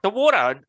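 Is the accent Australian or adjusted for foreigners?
Australian. It is said in his Australian accent.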